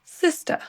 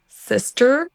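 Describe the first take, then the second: First: Higher British SISTER, no final R. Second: American SISTER with final R. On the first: Teacher contrasting accents for learners, British SISTER. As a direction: SISTER ending on a bare schwa. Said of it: "l'accent britannique". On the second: Teacher contrasting accents for learners, American SISTER. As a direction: SISTER rising onto an R-coloured ending. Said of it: "d'abord l'accent U S". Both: Shown as a demonstration.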